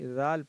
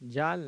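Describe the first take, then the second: First: It begins with a 'dh' sound, tongue at teeth. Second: It begins with a 'j' sound. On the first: The speaker calls it right. "जाल पढ़ें उसको।" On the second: The speaker calls it wrong. "जाल नहीं"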